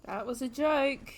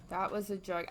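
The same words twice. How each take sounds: First: Slow, stretched-out JOKE; drawn-out reaction. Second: Said in the usual way. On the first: Real, not acted. Viewer reacting to the film's joke, drawn out. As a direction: draw out JOKE slowly.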